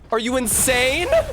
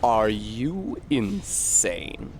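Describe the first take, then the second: First: It is said in his ordinary voice. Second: It is said in a put-on character voice.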